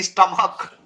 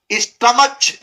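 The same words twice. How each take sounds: First: स्टमक ending in a hard k; correct k reading. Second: स्टमच ending in a ch sound; wrong ch reading. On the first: Teacher correcting the misreading of stomach, hard k. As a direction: finish स्टमक on k, without any ch. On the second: Teacher showing the misreading of stomach, wrong ch. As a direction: say स्टमच with final ch as in church. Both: Shown as a demonstration. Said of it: "स्टमच नहीं स्टमक".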